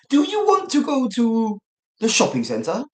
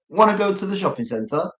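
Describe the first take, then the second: First: It is said slowly, every word in full. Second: It is said fast, words run together.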